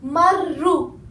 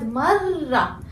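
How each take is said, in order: First: The word ends with an u vowel. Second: The word ends with an a vowel. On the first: The speaker calls it wrong. "I didn't say marru" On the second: The speaker calls it right. "I said marra"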